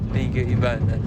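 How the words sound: It is said in a sarcastic tone. "Number three, sarcastic"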